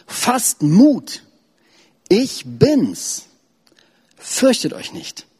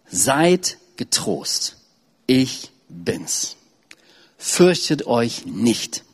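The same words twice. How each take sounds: First: Higher, calling out over the storm; urgent reassurance. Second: Very slow, gentle words of Jesus; solemn reading. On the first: Preacher reads Jesus calling to the disciples, raised and urgent. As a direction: lift it high to reach the boat. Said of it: "Sofort sprach Jesus sie an". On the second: Preacher reads Jesus calming the frightened disciples, slowly. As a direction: let each phrase settle, slowly. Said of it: "Jesus aber redete sogleich mit ihnen und sprach". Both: Acted.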